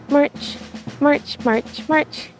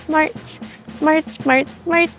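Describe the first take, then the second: No difference in how they are said.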